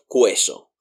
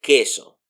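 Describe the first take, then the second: First: Queso with a w glide, "KWE-so"; U pronounced. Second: Queso as "KE-so", no w; U silent. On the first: Teacher warns learners off the wrong queso, said "kweso". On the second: Teacher corrects to the right queso, U mute, "keso". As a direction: go from k straight to e in queso. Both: Shown as a demonstration. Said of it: "not queso".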